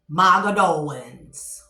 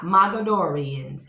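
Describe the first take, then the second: First: The name is said as Mogadowans. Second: The name is said as Mogadorians. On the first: The speaker calls it right. "It is, hold on, Mogadowans" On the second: The speaker calls it wrong. "It is not Mogadorians"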